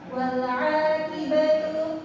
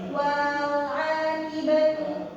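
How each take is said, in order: First: The vowel runs straight into the l. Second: The vowel before the l is drawn out. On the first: The speaker calls it right. "dibacanya dilangsungin ke huruf lamnya" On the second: The speaker calls it wrong. "bukan dipanjangin, bukan wal akibatu"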